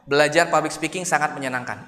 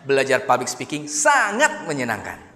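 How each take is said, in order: First: It is said flat with no word stressed. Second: The word sangat is stressed. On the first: "Itu flat" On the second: "Atau dikata sangatnya"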